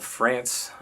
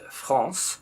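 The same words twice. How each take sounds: First: It is said with an English pronunciation. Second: It is said with a French pronunciation.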